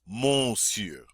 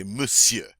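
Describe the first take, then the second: First: "monsieur" said as it looks, with a full "mon" first syllable; "monsieur" read by its spelling, as "mon-syur"; spelling pronunciation. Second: "monsieur" with the ON dropped, as "muh-syuh"; "monsieur" said "muh-syuh", short first syllable; correct French pronunciation. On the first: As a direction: sound out the ON in "monsieur", drawn out. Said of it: "looks like we should say". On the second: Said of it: "pretend like the O N's not there". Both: Shown as a demonstration.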